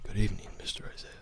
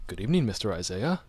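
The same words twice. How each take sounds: First: Whispered butler greeting; quick, hushed whisper of a butler. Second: Soft, proper butler greeting; lightly voiced formal butler, softer than usual. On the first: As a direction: try the butler as a fast, soft whisper. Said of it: "Now it's kind of like". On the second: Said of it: "let's hear your butler voice". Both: Shown as a demonstration.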